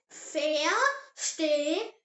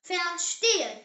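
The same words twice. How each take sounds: First: "verstehen" very slow, broken into syllables; slow model pronunciation. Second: Said in the usual way. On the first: Shown as a demonstration. Teacher has learners repeat the German word, slow model pronunciation. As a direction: say "verstehen" slowly, pausing between the syllables. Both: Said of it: "Say it".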